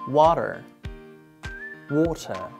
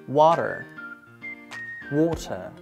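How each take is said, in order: Both takes have the same delivery.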